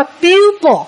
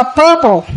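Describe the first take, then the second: First: "pupil" said as "pi-pồ", stress on the first syllable; "pupil" with a clear "pi" at the start, not "purple"; correct pupil. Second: "purple" said in place of "pupils"; imitating a misread, "purple" for "pupils"; wrong reading as purple. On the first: Teacher models the right "pupil" for the class. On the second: Teacher mimics a student's wrong "purple" instead of "pupils". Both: Shown as a demonstration. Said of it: "Mà phải đọc là pupil".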